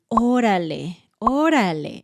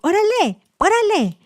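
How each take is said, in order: First: It sounds sad and less happy. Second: It sounds impatient, urging someone to hurry.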